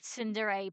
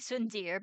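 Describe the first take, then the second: First: The final vowel is pronounced clearly. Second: The final vowel is dropped and silent. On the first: The speaker calls it right. "Both e's have to be pronounced" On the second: The speaker calls it wrong. "it would mean the second e would be silent, which is not the case"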